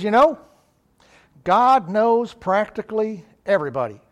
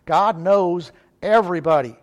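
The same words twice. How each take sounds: First: Comedian's punchline with "practically" set apart before "everybody"; raised, louder opening on "You know", then "God knows practically everybody" spaced out; Jack Benny. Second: Firm, louder "God knows everybody", no hedge; emphatic correction. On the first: Retold or imitated. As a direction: deliver "practically everybody" as a retold comic punchline, pausing between the words. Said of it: "in true Benny form". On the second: Real, not acted. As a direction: set "everybody" apart after a short pause and stress it. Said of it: "there's no practically about it".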